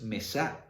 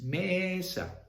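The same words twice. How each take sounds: First: Mesa wrongly stressed as me-SA; short ME, push the SA in mesa; wrong final stress. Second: Mesa slowed, ME high and long, sa dropping; stress on first syllable. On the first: Teacher showing what it is not, stress on SA in mesa. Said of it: "no es mesa". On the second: Teacher correcting for students, long stressed ME in mesa. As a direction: stretch ME high, then fall on sa in mesa. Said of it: "es mesa". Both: Shown as a demonstration.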